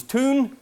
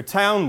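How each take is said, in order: First: TOON with a long "oo" in place of "ow"; Old English pronunciation. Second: Said in the usual way. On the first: Shown as a demonstration. Lecturer showing the Old English word for town, long "oo" vowel. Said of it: "Old English word for town was toon". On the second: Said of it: "Old English word for town".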